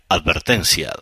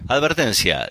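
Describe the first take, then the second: First: It is said slowly in a deep voice. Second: It is said at normal speed and pitch.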